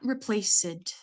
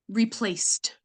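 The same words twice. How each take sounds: First: The ending is pronounced as an extra syllable. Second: The ending is a plain t sound, no extra syllable. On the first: The speaker calls it wrong. "not replaced" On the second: The speaker calls it right. "it's replaced"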